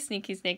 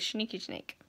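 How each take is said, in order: First: The first word begins with a plain s sound. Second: The first word begins with a sh sound. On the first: "I don't say Sneaky Snake" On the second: "I say Schneaky Snake"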